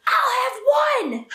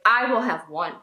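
First: High, slow, drawn-out shout; mock child's screamed ultimatum; screamed demand. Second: Put-on restrained retelling of an angry child; understated imitation of a mad little boy. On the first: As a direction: imitate a furious small child laying down the law. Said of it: "Like, screams it". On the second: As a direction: lay it down firmly without shouting. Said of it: "he was so mad".

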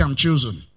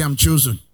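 First: I'm chosen with cool confident swagger. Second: Said in the usual way. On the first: Shown as a demonstration. Preacher tells congregation to declare they are chosen, swagger. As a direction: strut through I'm chosen. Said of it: "Say it with a swag".

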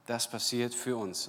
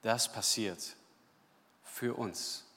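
First: "für" leaned on in one flowing line; firm, even emphasis on "für"; stress on für. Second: Quiet, with a pause before "für uns"; stressed für. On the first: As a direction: say it through, weight on "für". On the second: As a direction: hold back, then lean on "für". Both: Shown as a demonstration.

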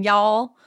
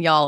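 First: "y'all" with a stretched, rising vowel; held-out vowel. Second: Said in the usual way. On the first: Shown as a demonstration. Co-host shows her country way of saying "y'all", vowel held out. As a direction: hold out the vowel in "y'all" and lift it. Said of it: "holding out vowels and stuff". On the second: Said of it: "It's just the way I say it".

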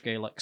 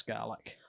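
First: Gaelic said as GAY-lik; Gaelic, first syllable like "gay"; Irish pronunciation. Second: Gaelic said as GAL-ik; Gaelic, first syllable rhyming with "pal"; Scots pronunciation. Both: Shown as a demonstration. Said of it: "Have I been pronouncing Gaelic wrong?".

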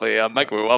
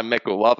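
First: "microwave" said as my-cro-WAH-vay; variant odd pronunciation. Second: "microwave" said as mee-cro-WAH-vay; adopted odd pronunciation. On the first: Vowing to rename the appliance, variant odd pronunciation. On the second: Vowing to use the new word, adopted odd pronunciation. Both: Shown as a demonstration. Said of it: "I'm gonna start calling my microwave".

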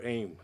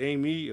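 First: "Aim" said as one syllable; alternate pronunciation. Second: "Amy" said in two syllables; alternate pronunciation. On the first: Host guesses at singer's name, "Aim" as one syllable. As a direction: say "Aim" without the final ee. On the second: Host guesses at singer's name, "Amy" as two syllables. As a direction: say "Amy" as AY-mee. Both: Shown as a demonstration. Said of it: "don't even know if I'm pronouncing it right".

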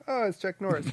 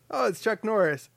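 First: Looking down, recognizing. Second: Higher-pitched startled recognition at normal volume; surprised recognition. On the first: Correcting the retold meeting because he's short, underwhelmed recognition. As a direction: greet someone shorter than expected. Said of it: "'cause he's kinda short". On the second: Retelling bumping into Chuck Norris, straightforward surprise. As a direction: spot a celebrity face to face. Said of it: "Well, no, it's more like". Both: Retold or imitated.

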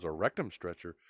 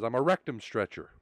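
First: Softer, lower, disbelieving echo; dumbfounded. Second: Understated, straight-faced delivery; deadpan. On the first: Cop echoing the driver's strange job title, dumbfounded. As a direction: repeat it back quietly, mildly stunned. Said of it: "Cop with a dumbfounded look on his face". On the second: Driver answering the cop's question about his job, deadpan. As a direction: state it matter-of-factly, deadpan. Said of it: "with a dead face and says". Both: Acted.

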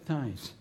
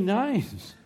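First: "days" said again carefully, softer; corrected "days". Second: "days" sliding toward "neighs"; slurred "days". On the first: Preacher fixing a slip for the congregation, "days" said plainly. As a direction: quietly restate "days" with a proper d. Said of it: "It sounds like what a horse does". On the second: Preacher slipping on a word mid-sermon, "days" sounding like "neighs". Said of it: "It sounds like what a horse does, neighs". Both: Real, not acted.

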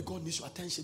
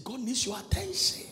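First: Said to neighbor. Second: Said in the usual way. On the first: Shown as a demonstration. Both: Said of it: "Tell somebody".

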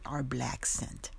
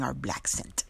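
First: "our black scent" drawn out slowly; "black scent" slow and deliberate; emphatic repeat. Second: Said in the usual way. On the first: Real, not acted. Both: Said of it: "Yeah, you heard me right".

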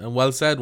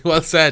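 First: Said in the usual way. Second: Laughing, broad Dublin accent. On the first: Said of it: "in your Dublin accent". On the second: Real, not acted. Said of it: "Well said in your Dublin accent".

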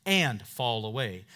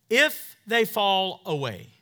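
First: "and" given the weight, falling close; stress on AND. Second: "If" pushed up and louder, slow; stress on IF. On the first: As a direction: put the weight on "and" over "fall away". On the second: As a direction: lean hard on "If" before "they fall away". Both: Shown as a demonstration. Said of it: "The actual Greek there says".

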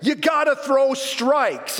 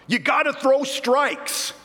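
First: Yelled again. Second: High, slow heckling yell from the stands; hollered heckle. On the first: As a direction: really belt it out this time. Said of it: "that dad will yell again". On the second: Dad in the stands heckling the pitcher, slow yell. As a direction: bellow it like a know-it-all dad. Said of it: "he'll holler out". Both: Retold or imitated.

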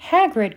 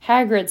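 First: High, loud cry of a name. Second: Mildly timid use of a name, slightly raised. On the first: Hermione seeing Hagrid burst into tears, crying out. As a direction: cry out to him in alarm. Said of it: "cried Hermione". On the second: Hermione approaching a grumpy Hagrid, a touch timid. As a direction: tentatively try to get his attention. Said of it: "said Hermione timidly". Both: A narrator's reading.

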